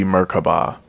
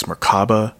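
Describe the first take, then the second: First: Merkaba as MER-kuh-bah; Merkaba, short "kuh", ending on "bah"; alternative pronunciation. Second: Merkaba as mer-KAH-ba; Merkaba, long open "ah" in the middle; middle-syllable stress. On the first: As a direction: say Merkaba with a weak middle and open final "bah". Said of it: "I don't know if it's Merkaba". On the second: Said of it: "it might be Merkaba". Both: Shown as a demonstration.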